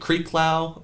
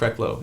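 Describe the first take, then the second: First: The first syllable sounds like creek. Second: The first syllable sounds like kreck. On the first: Other people say the name this way. The speaker calls it wrong. "I'll get Creeklow" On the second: This is how the name is really said. The speaker calls it right. "But it's Krecklow"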